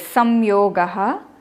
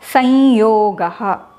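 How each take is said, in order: First: An m sound comes before the y. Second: A nasalized y comes before the y. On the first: "it's written like this" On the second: "the um gets converted to the anunasika of ya"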